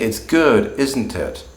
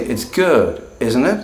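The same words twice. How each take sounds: First: The question sounds certain, expecting agreement. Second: The question sounds unsure, genuinely asking. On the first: The speaker is sure and only checks for agreement. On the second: The speaker is not sure and really asks.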